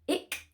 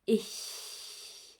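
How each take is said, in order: First: The word ends in a hard k sound. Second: The word ends in a soft breathy hiss. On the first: The speaker calls it wrong. "not that hard k sound" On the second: The speaker calls it right. "but a softer ich"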